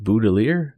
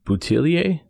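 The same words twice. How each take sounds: First: "Boutilier" ending in -eer, slow and questioning; unsure anglicized pronunciation. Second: "Boutillier" ending in -ee-ay, slow and rising; unsure French-style pronunciation. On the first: Radio host second-guessing a singer's surname, "[name]" ending in -eer, unsure. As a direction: try "Boutilier" with a hard English r. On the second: Radio host attempting a singer's surname, "[name]" ending in -ay, unsure. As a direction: try "Boutillier" the French way, questioningly. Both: Real, not acted. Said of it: "I'm gonna butcher this name".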